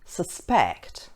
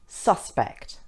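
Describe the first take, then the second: First: The stress is on the second syllable. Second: The stress is on the first syllable. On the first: The word is used as a verb. "If it's being used as a verb, the stress is on the second syllable" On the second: The word is used as a noun. "If the word is being used as a noun, the stress is on the first syllable"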